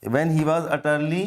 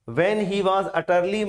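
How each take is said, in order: First: When he was utterly, slow and lower; slow reading, lower. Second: When he was utterly read very slowly. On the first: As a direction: repeat it slowly, dropping the voice. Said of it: "जब वो क्या था?". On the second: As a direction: read it word by word. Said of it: "कब?". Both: Shown as a demonstration.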